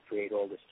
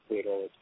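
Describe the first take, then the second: No difference in how they are said.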